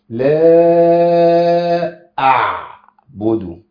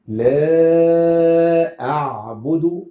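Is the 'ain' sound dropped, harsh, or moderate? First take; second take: harsh; moderate. First: The ain sound is forced out harshly. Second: The ain sound is clear but moderate. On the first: The speaker calls it wrong. "بتتعامل مع العين الساكنة بعنف شوية" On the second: The speaker calls it right. "ما زدتش عن كده"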